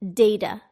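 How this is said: The middle consonant sounds like a soft D. "data is said with a D"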